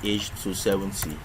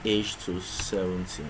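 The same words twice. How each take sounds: The two takes are said the same way.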